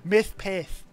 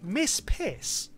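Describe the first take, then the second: First: The s sounds are lisped like th. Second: The s sounds are said plainly.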